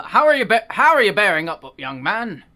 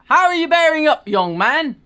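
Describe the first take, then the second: First: Redone British vicar. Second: Put-on high, loud British old vicar voice; a cheery old British vicar asks. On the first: Acted. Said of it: "my voice is just all over". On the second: Vicar greeting young Maxim in a British accent. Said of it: "all the British accents here".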